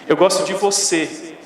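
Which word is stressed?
você. The word você carries the emphasis. It highlights whom the liking is for. "você está ressaltando a quem, de quem você gosta"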